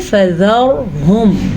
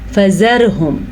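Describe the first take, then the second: First: The r is pronounced heavy and full. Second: The r is pronounced light and thin. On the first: "मैंने रा को मोटा पढ़ा है" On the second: "अगर कोई बारीक पढ़ेगा तो वो गलत पढ़ेगा"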